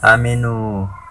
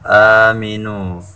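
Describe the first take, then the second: First: The first vowel is held short. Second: The first vowel is held long. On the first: The speaker calls it wrong. "bukan dibaca aminu" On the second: The speaker calls it right. "alifnya dipanjangkan dua harokat"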